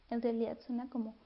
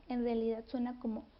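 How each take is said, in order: The two takes are said the same way.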